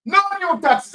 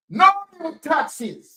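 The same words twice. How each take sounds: First: "No new taxes" louder and higher, outraged; indignant repeat. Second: Slow, drawn-out mock of "No new taxes"; mocking quote. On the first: Real, not acted. Vlogger repeats the slogan to viewers in outrage. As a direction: throw "No new taxes" back, loud and angry. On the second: Vlogger mocks the government's promise, slow sarcasm. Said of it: "They tell Jamaican people".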